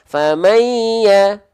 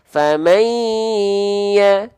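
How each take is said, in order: First: The nasal sound is held briefly and rushed. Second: The nasal sound is held noticeably longer. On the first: The speaker calls it wrong. "Bedakan dengan dua harokat mad" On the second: The speaker calls it right. "Dua harokat tapi kadar guna"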